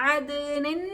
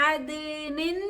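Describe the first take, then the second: No difference in how they are said.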